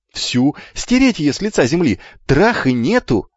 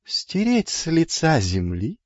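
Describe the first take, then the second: First: Put-on raised, vehement boyish cry; eager shouting. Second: «Стереть с лица земли» slow, high, rising at the end; questioning echo. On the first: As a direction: cry it out with relish. Twins shout eager answer. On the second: Acted. Hermes questions the twins' words back.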